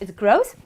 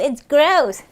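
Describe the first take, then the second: First: It sounds unlike gross meaning disgusting. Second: It sounds like gross meaning disgusting. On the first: It means in total. The speaker calls it right. "No, it's gross" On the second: It means something is disgusting. The speaker calls it wrong. "Like, ew, it's gross"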